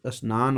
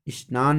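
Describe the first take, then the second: First: Said in the usual way. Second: स्नान begun with an i, "is-naan"; added first vowel. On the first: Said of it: "स्नान होता है". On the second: Shown as a demonstration. Teacher showing the common error, स्नान said as "isnaan". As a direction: put "i" before स्नान: isnaan. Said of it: "नहीं होता है".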